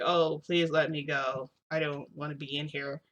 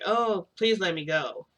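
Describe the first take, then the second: First: Read like a script. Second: Slow, wooden begging that nobody would believe; unconvincing plea. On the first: Hawks begging to be let go, wooden and scripted. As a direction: beg without meaning any of it. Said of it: "sound like they're reading from, like, a line". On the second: Toshinori pleading to be released, slow and unconvincing. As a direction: plead like a bad actor reading a line. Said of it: "it doesn't even sound believable". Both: Retold or imitated.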